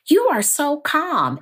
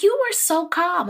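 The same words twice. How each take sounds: First: High, lilting imitation of others; lightly voiced admirer, pitched up; playful high "so calm" voice; mock admiring. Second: Very high sing-song imitation; high cooing praise; mock admiring. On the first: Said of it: "I get a lot from people". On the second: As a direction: squeal it the way fans say it. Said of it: "when I say it, it's like".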